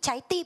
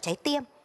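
First: The vowel is a plain i sound. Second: The vowel glides like ie. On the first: The speaker calls it right. "Không có ê đúng không?" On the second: The speaker calls it wrong. "chứ không phải là"

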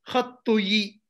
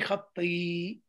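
First: A u vowel follows the t, then a separate yi. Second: An i vowel follows the t, blending into one syllable. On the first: The speaker calls it wrong. "There's no way you're going to be able to say khattu yi" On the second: The speaker calls it right. "And you say khatti"

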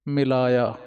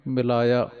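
No difference in how they are said.

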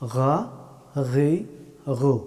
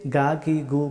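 First: The consonant is a raspy sound from the throat. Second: The consonant is a plain g sound. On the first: The speaker calls it right. "এইভাবে বলতে হবে।" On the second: The speaker calls it wrong. "অনেকেই গা গি গু বলে থাকেন, এটা শুদ্ধ হবে না।"

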